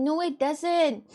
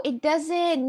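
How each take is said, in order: First: "No, it doesn't" drawn out slowly, each word weighed; slow emphatic repeat. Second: Said in the usual way. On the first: Shown as a demonstration. Insisting to the friend, a slow deliberate "No, it doesn't". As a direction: spell it out slowly so they get it.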